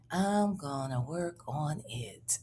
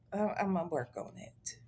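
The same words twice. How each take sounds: First: Whisper. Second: Said in the usual way. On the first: Real, not acted. Repeats, then whispers it.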